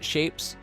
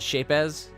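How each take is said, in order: First: The word is said as one syllable. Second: The word is said as two syllables. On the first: The speaker calls it right. "calling it Shapes" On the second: The speaker calls it wrong. "they call it Shape-as"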